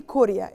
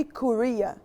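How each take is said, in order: First: Korea with the weight up front, "KOR-ya"; Arabic pronunciation. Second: Korea stressed in the middle, "ko-REE-a"; English pronunciation. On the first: Teacher contrasting languages, Korea in Arabic as "KOR-ya". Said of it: "In Arabic we say Korea". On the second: Teacher modelling English for learners, Korea as "ko-REE-a". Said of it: "In English we say Korea". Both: Shown as a demonstration.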